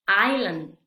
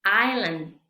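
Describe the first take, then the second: First: "island" again EYE-land, no s; louder repeat of "island", s silent. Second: "Island" said EYE-land, no s; louder "Island" with no s sound; teacher demo of "Island", s dropped; silent s. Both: Shown as a demonstration. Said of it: "vamos a pronunciarla".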